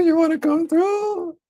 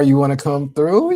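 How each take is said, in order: First: Much higher, slow, put-on voice; sing-song falsetto invite. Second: Said in the usual way. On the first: Streamer re-invites co-star in a playful falsetto. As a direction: croon the invite up high and slow.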